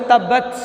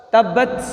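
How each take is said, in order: No difference in how they are said.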